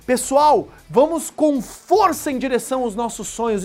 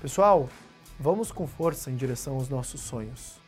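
First: It is said with strong, forceful energy. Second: It is said weakly, with little energy.

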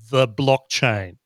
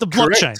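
First: It is said plainly, without much resonance. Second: It is said with a full, resonant, hyped voice. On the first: The speaker calls it wrong. "You're not saying it with enough resonance in the voice" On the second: The speaker calls it right.

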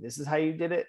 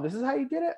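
First: It sounds dismissive and skeptical. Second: It sounds accepting and satisfied.

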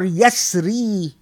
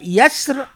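First: The word ends with a long ee vowel. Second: The word ends on the r with no vowel. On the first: "with إِيَا" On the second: "without إِيَا"

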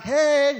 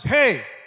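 First: A light, casual, friendly greeting tone. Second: A sharp, forceful, commanding tone. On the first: A casual greeting between friends. The speaker calls it wrong. "It's not a friendly hey. It's not like" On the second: A warning to stop what you are doing. The speaker calls it right. "God says, hey. It's authority"

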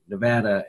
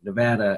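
First: The name is said the way Nevadans say it. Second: The same.

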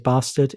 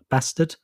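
First: It is said in a posh British accent. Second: It is said in a working-class British accent. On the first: The speaker is upper class. "If you're posh, you say bastard" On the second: The speaker is working class. "If you're working class, you say bastard"

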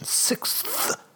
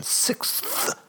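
First: The word is pronounced carefully and deliberately. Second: The same.

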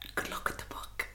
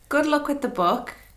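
First: It is said while laughing. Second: It is said without laughing.

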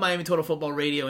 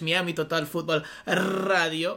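First: It is said with an English pronunciation. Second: It is said Spanish-style with rolled R's.

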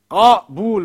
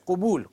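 First: The first vowel is an 'a' sound. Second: The first vowel is a 'u' sound. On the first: The speaker calls it right. "Qabul with a fatha" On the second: The speaker calls it wrong. "don't say qubul as everybody says"

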